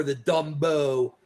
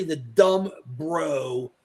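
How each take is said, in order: First: "Dumbo" run together as one name; slow "Dumbo" with no break; one-word pronunciation. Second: "dumb bro" as two slow, separate words; stretched "dumb ... bro"; two-word pronunciation. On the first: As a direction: drop the R, say "Dumbo". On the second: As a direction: sound the R in "bro" after "dumb". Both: Shown as a demonstration. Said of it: "it's really the dumb bro or the Dumbo".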